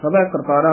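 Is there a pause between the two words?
no. The two words run together without a pause. The speaker calls it wrong. "ਇਕੱਠਾ ਨਹੀਂ ਕਹਿ ਦੇਣਾ"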